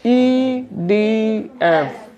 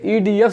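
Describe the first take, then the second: First: Each letter is separated by a short pause. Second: The letters are run together without pauses. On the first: The speaker calls it right. "रुक रुक के थोड़ा सा space मारते हैं" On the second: The speaker calls it wrong. "जब हम बोलते ई डी एफ से मिलाया तब गड़बड़ा जाता, वो गलत हो जाता"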